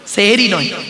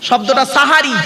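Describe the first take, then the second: First: The first vowel is an e sound. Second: The first vowel is an open a sound. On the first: The speaker calls it wrong. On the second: The speaker calls it right. "দন্তেশ্বয় একার নয়, দন্তেশ্বয় আকার।"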